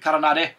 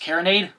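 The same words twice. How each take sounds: First: The name is pronounced with Spanish sounds. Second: The name is pronounced with English sounds. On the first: "I want to pronounce it with a, a Spanish a Spanish pronunciation to it" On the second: "but maybe it's Caronade"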